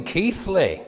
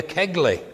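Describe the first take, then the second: First: Keighley said as KEETH-lee, high and slow; local pronunciation. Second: Kegley said with a hard G, KEG-lee; mistaken pronunciation. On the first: Correcting a friend's map reading, Keighley pronounced KEETH-lee. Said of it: "you still pronounce it Keighley". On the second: Friend asking the way, Kegley pronounced KEG-lee. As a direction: read Kegley as spelt, with the G sounded. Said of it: "when it's spelt with a G". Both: Retold or imitated.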